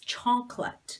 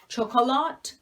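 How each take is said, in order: First: The middle O vowel is silent. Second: The middle O vowel is clearly pronounced. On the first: The speaker calls it right. "This O is completely silent" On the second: The speaker calls it wrong. "people pronounce it like chocolat. It is not that"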